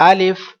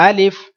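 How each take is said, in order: The two takes are said the same way.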